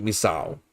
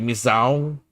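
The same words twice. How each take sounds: First: Misao said another way, as the alternative; second try of Misao. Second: Misao said one way, as a first option; first try of Misao. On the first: Learner asks tutor which Misao is right, second careful take. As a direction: offer Misao as the second guess. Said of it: "would this be like Misao". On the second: Learner asks tutor which Misao is right, first careful take. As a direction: offer Misao as the first guess. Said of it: "or like Misao". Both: Shown as a demonstration.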